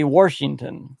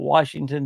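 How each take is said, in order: First: The first syllable has an R sound. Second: The first syllable has no R sound. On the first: "We say Washington down here" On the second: "I said it without an R"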